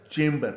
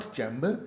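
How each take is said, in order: First: Loud chamber as CHAYM-ber; correct pronunciation. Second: Chamber as CHAM-ber, short open a; common mispronunciation. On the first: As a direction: punch the long "ay" in chamber. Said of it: "but chamber". (chamber को ज़ोर से "चेम्बर" बोलें) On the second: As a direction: chamber with the vowel of cat. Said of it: "not chamber". (chamber को "चैम्बर" बोलें) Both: Shown as a demonstration.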